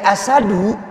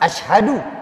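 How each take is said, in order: First: It has a plain s and no h. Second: It has sh followed by a breathy h. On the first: It means lion. The speaker calls it wrong. "kita ringankan bacaan ini menjadi asadu" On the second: I bear witness. The speaker calls it right. "Ini yang tepat"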